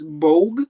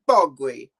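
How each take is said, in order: First: The name has an English-style pronunciation. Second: The name has a different, non-English pronunciation. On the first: The speaker's own guess at the name. "from the English kind of pronunciation, I'd say it's" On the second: Someone else said it this way. "I heard Ramsey call it"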